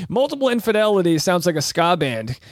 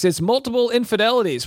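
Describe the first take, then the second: First: Said in the usual way. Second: Band announcer. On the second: Shown as a demonstration. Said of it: "Coming up next".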